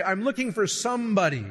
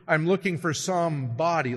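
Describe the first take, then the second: First: Said in the usual way. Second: "some body" said as two separate words, body stressed; "some" and "body" clearly separated, not "somebody"; split into some body. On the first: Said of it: "I'm looking for some body," like you're looking for a corpse". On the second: Shown as a demonstration. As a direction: pull "some body" apart, leaning on body. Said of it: "like you're looking for a corpse".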